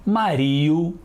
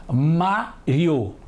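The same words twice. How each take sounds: First: "Mario" stressed on the i, ma-RI-o; wrong-stress demonstration. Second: "Mário" as MÁ, pause, rio, strong first syllable; separated syllables. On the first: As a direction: echo the misreading, "Mario" as ma-RI-o. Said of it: "Não é assim que costumamos falar". ("Mario" com o i forte) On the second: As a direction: break "Mário" in two, stressing MÁ. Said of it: "Vamos separar as sílabas". ("Mário" em sílabas separadas, MÁ forte) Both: Shown as a demonstration.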